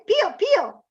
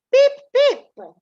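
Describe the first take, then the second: First: High chirpy pio pio; Italian chick peep. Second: Put-on piping baby chick call, high and loud; high chick peeps. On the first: Teacher contrasting the Italian chick call, chirpy and high. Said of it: "In Italian". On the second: Teacher showing children how an English chick sounds, high peeping. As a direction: peep like a tiny chick. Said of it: "in English goes". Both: Shown as a demonstration.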